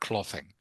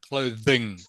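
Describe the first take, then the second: First: The middle consonant is not a th sound. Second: The middle consonant is a hard th sound. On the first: The speaker calls it wrong. "not clothing" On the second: The speaker calls it right. "it's a hard th sound. Clothing"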